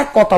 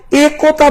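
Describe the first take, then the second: First: একতা with open "ae", as "ae kota"; wide "ae" at the start of একতা; everyday pronunciation. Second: একতা slow and higher, with closed "e"; drawn-out narrow "e" opening একতা; spelling pronunciation. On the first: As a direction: open the first vowel of একতা to "ae". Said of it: "আমরা বলি একতা". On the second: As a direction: say একতা as "e kota", pure "e". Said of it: "একতা বলি নাকি একতা বলি". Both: Shown as a demonstration.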